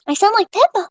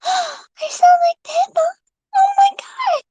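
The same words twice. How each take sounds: First: Said in the usual way. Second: Put-on gasp, then a much higher, slower girlish voice; high, slow mock Pippa with a gasp. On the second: Shown as a demonstration. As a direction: squeak it out like Pippa after a gasp.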